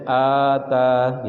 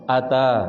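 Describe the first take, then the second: First: The first vowel is held long. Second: The first vowel is kept short. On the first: It means to give. "kalau dibaca panjang hamzahnya" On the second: It means to come. "dibaca pendek pada hamzah"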